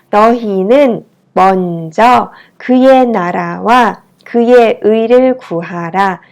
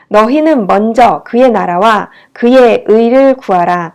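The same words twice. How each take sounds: First: The sentence is read at a slow pace. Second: The sentence is read at a fast pace. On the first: "천천히 읽어볼까요?" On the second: "제가 좀 빨리 읽었죠?"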